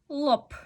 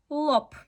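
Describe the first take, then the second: No difference in how they are said.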